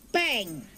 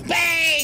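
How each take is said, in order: First: It is said quietly. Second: It is said loudly.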